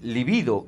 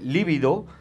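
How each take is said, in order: First: The stress is on the second syllable. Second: The stress is on the first syllable. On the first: The speaker calls it right. "se debería decir libido" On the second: The speaker calls it wrong. "lo que muchas veces se dice líbido"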